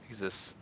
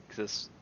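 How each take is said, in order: The two takes are said the same way.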